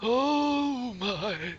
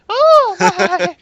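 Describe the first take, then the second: First: An old person's voice at lower pitch. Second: A higher-pitched old gnome voice.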